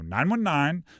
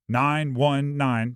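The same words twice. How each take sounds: First: The digits are said with a bouncy rhythm. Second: The digits are said flat and monotone. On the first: The speaker calls it right. "you got to say it with rhythm" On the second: The speaker calls it wrong. "nobody says like"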